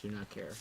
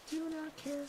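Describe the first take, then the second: First: Said in the usual way. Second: Much higher, soft squeaky "Do not care."; squeaky dismissive. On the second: Shown as a demonstration. Streamer ignoring the dying rabbit, high and squeaky. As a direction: toss it off in a tiny high voice. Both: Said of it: "Don't care".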